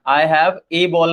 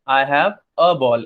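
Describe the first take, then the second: First: The word 'a' has a full 'ay' vowel. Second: The word 'a' has a short reduced 'uh' vowel. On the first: The speaker calls it wrong. "I have ए ball नहीं कहते" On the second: The speaker calls it right. "हम ज्यादातर बोलते हैं I have अ ball"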